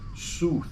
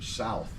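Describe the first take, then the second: First: The vowel sounds like 'oo' in 'tooth'. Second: The vowel sounds like 'ow' in 'mouth'. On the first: This is the older English pronunciation of the surname. "It was actually pronounced Sooth" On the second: This is how the compass direction is said. "instead of like the direction south"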